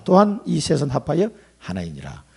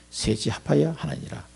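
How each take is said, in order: First: Said in the usual way. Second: 셋이 합하여 하나이니라 repeated much softer, as if to himself; soft echo. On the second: Shown as a demonstration. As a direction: echo the key phrase quietly.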